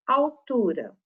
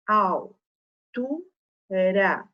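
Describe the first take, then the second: First: Said in the usual way. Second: "al, tu, ra" com pausa entre as sílabas; separando sílabas. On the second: Shown as a demonstration. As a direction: diga "al... tu... ra", uma de cada vez. ("al, tu, ra" em sílabas isoladas) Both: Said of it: "Se eu separar sílabas".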